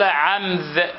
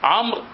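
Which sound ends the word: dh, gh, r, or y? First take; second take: dh; r. First: The word ends in a dh sound. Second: The word ends in an r sound.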